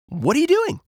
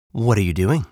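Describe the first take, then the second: First: Very high cartoon rabbit voice; squeaky-high question, rising at the end; curious rabbit. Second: Lightly voiced fox, in a middle pitch; casual fox question, rising at end; curious fox. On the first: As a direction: ask as an eager little rabbit. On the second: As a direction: ask evenly as a friendly fox.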